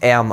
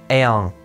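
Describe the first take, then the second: First: The word ends with a plain closed-lip m. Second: The word ends with a nasalized sound. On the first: The speaker calls it wrong. "nicht Erm ausgesprochen, wie ich es eben gesagt habe" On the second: The speaker calls it right. "wird das M am Ende eines Wortes nasaliert"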